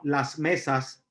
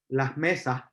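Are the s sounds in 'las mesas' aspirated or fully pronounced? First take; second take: pronounced; aspirated. First: The s sounds are pronounced fully as hisses. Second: The s sounds are aspirated like soft h. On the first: This is the standard form. "no decimos las mesas" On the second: This is the Puerto Rican form. "Aspiramos la S"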